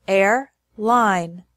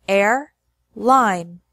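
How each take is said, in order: Both takes have the same delivery.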